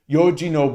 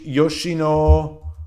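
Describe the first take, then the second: First: The middle consonant is a 'g' sound. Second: The middle consonant is an 'sh' sound. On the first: The speaker calls it right. "G G not she" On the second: The speaker calls it wrong.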